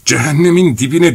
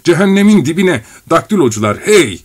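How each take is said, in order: First: Roaring. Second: High loud roar. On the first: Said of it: "diye kükredi neden sonra". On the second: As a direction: bellow it out. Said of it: "diye kükredi". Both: A narrator's reading.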